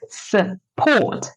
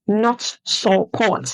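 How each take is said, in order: First: The first vowel is a reduced schwa. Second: The first vowel is a full vowel. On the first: The speaker calls it right. "No, it's support" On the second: The speaker calls it wrong.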